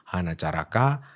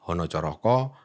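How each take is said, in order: First: The vowels are pronounced as a sounds. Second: The vowels are pronounced as o sounds. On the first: "apa yang dilatinkan sebagai huruf A" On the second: "cara membaca yang tepat seringkali adalah"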